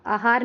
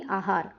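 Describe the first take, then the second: First: आहार as अहार, short opening a; mistaken short vowel. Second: आहार with long opening aa, lower and softer; correct long vowel. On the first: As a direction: clip the first vowel of आहार to uh. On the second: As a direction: say आहार as AA-haar. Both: Shown as a demonstration. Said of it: "आहार नहीं".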